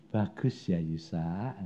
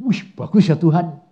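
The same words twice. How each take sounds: First: Low, soft sarcastic echo. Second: Said in the usual way. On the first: Retold or imitated. God mocking the preacher's praise, sarcastic. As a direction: hand the praise back with a sneer. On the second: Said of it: "Saya sudah ngomong".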